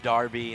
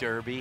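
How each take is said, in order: First: The first vowel sounds like 'ar' in car. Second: The first vowel sounds like 'er' in her. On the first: This is how a particular person with the accent says it. "the guy that says Darby" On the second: This is the usual way of saying it. "instead of Derby"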